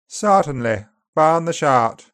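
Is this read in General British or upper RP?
upper RP. It is read in upper RP, vowels more open. "Upper RP is farther open and back"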